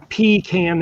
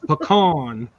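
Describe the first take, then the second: First: The first syllable sounds like 'pee'. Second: The first syllable does not sound like 'pee'. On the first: The speaker calls it wrong. "It's not a pecan that you pee in a can" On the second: The speaker calls it right. "that's the proper way to say it"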